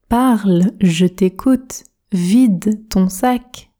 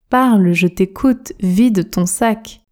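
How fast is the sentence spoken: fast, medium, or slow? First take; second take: slow; medium. First: It is spoken slowly with every word articulated. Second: It is spoken at a normal conversational speed. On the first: "Objectif, articulation" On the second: "Vitesse standard maintenant"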